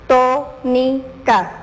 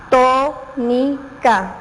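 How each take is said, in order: First: Very slow, broken syllable by syllable; TÓ-NI-CA in separate robotic beats, pauses between. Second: "tónica" very slow, TÓ strongest and longest; stress on TÓ. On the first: Teacher showing pupils syllable separation, robot-like. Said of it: "tienes que simular ser un robot". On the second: Teacher helping pupils find the stressed syllable, stress on TÓ in "tónica". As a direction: split "tónica" into syllables, leaning hard on TÓ. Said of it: "lo dije con más fuerza o más largo". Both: Shown as a demonstration.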